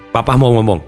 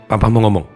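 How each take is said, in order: No difference in how they are said.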